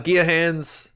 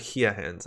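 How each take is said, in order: First: The first word begins with a G sound. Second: The first word begins with an H sound. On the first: The speaker calls it wrong. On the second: The speaker calls it right.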